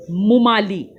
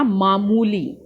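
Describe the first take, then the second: First: मुमाली with the vowels swapped, mu-maa-li; wrong word said. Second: मामूली with a long maa and a long moo; correct word. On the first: Teacher reads the wrong spelling to pupils. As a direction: say मुमाली as the mistaken form. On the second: Teacher gives pupils the right pronunciation. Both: Shown as a demonstration. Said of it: "मुमाली नहीं होता".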